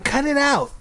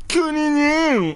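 First: Put-on high little-girl objection; squeaky sister telling him off; annoyed protest. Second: Very high, drawn-out mocking copy; stretched squeaky imitation; annoying mimicry. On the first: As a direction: demand it sharply, pitched way up. Ashley protests being mimicked. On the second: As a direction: parrot it in a slow, garbled squeal. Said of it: "repeating things that people say in an annoying tone". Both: A narrator's reading.

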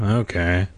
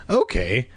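First: Without enthusiasm. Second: Said in the usual way. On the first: A narrator's reading. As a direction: agree with no enthusiasm at all. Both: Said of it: "Casey said without enthusiasm".

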